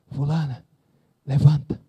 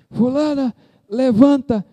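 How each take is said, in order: First: It is said very quietly, almost under the breath. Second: It is shouted loudly and forcefully. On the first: He is afraid to be heard. The speaker calls it wrong. "bem baixinho assim, para ninguém escutar" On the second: He speaks with full authority and faith. The speaker calls it right.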